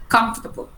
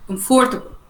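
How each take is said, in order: First: "comfortable" in American style, no r after the o, "kum-fter-bul"; American pronunciation. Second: "comfortable" with the o and r both sounded, "kum-for-ta-bul"; British pronunciation. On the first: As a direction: say "comfortable" the American way, dropping the r sound. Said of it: "in the American accent to say comfortable". (نطق أمريكي لكلمة "comfortable" من غير صوت الـ r) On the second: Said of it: "In British accent, اللهجة البريطاني". (نطق بريطاني لكلمة "comfortable" مع نطق الـ o والـ r) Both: Shown as a demonstration.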